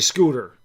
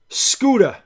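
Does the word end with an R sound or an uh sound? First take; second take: R sound; uh sound. First: The word ends with a clear R sound. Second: The final R is replaced by an uh sound. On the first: This is how upstate New Yorkers say it. "here upstate, I say scooter" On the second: This is how New York City people say it. "if you're from the city, that R becomes U H"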